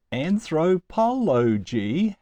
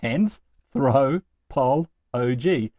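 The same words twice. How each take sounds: First: Said in the usual way. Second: "Anthropology" very slowly in separate beats, AN, THRO, POL, OGY; split into syllables. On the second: Shown as a demonstration. Teacher counting out a long word's syllables, slowly chunk by chunk. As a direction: leave a clear pause between the chunks of "Anthropology". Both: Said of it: "has four syllables".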